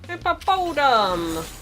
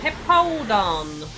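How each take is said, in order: First: The name is said with four syllables. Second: The name is said with three syllables. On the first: The speaker calls it wrong. "That's not how you say its name" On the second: The speaker calls it right. "There we go"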